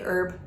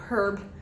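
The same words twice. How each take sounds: First: The h at the start is silent. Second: The h at the start is pronounced. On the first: This is the speaker's own everyday way of saying it. "I say herb" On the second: This is the British-school way of saying it. "they pronounce their H's, so they say herb"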